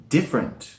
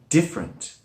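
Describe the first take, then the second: No difference in how they are said.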